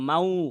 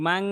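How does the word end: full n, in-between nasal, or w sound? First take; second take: w sound; full n. First: The ending turns fully into a w sound. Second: The ending is a clear, direct n sound. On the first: "আমি যদি মাউ বলতাম মাউ, সেটা ভুল হইতো" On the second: "কিন্তু আমি যদি বলি মাং, তাহলে মোটা করতে পারবো না"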